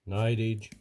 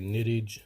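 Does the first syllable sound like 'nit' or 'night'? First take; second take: night; nit. First: The first syllable has a long vowel, like 'night'. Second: The first syllable has a short vowel, like 'nit'. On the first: "some say nightage" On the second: "some people say nittage"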